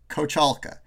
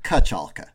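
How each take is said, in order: First: The first syllable is said fully as ko. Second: The first syllable is reduced to ka. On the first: This is the formal pronunciation. "if I'm formally saying how to pronounce it, I'd say Kochalka" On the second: This is the everyday pronunciation. "I don't really say the ko. I say more like ka"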